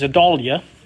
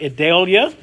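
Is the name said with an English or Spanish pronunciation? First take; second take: Spanish; English. First: The name is said with a Spanish pronunciation. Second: The name is said with an English-style pronunciation. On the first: The speaker calls it right. "it's the Spanish pronunciation" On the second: The speaker calls it wrong. "it's not Idalia"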